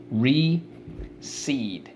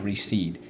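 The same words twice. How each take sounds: First: "Recede" stretched slowly, both syllables clear; drawn-out recede. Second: Said in the usual way. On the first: Shown as a demonstration. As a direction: say "Recede" long and deliberate. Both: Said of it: "teacher models the word".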